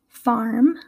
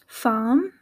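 First: Spoken in an American English accent. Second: Spoken in a British English accent. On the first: "versus how I would say it in the US" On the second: "how the pronunciation would be in England"

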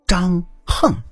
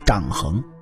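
First: The second syllable has a falling tone. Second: The second syllable has a rising tone. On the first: The speaker calls it right. "正确的读法叫张横。横这个字儿其实是读四声横" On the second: The speaker calls it wrong. "您各位肯定读成张衡"

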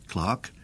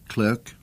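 First: The vowel sounds like the 'ar' in 'car'. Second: The vowel sounds like the 'er' in 'her'. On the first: This is the later pronunciation used in England. "into clerk" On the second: This is the older pronunciation kept in America. "the pronunciation gradually shifted from, for instance, clerk"

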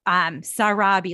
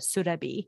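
First: The first vowel is an 'ah' sound. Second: The first vowel is an 'oo' sound. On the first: The speaker calls it wrong. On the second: The speaker calls it right.

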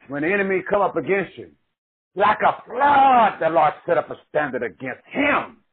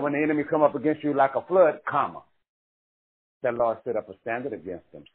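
First: The pause comes before 'like a flood'. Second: The pause comes after 'like a flood'.

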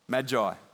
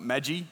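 First: It does not sound like the noodle brand. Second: It sounds like the noodle brand Maggi. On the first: The speaker calls it right. "There's only one G" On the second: The speaker calls it wrong. "Not magi, like the noodles"

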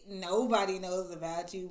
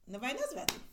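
First: It is said in a plain, neutral tone. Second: It is said with strong, pointed emphasis. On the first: Literally no one is aware of the person. "not like" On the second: The person is kept hidden from the public. "It's the emphasis. You saw how the tone"

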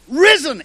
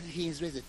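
First: It is said as an emphatic declaration. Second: It is said as a plain statement.

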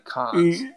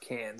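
First: The vowel sounds like the one in cot. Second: The vowel sounds like the one in cat. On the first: The speaker calls it right. "It's gotta be cons" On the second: The speaker calls it wrong. "there's no way it's pronounced cans"

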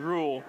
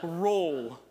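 First: The vowel sounds like the one in rule. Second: The vowel sounds like the one in roll. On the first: "It just sounds so unnatural when I say it that way" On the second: "make fun of how I say the word roll and roll and roll, they just all sound the same"

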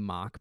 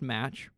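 First: The word ends with a k sound. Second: The word ends with a ch sound. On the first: The speaker calls it right. "Not pronounced match" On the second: The speaker calls it wrong. "I used to pronounce it that way"

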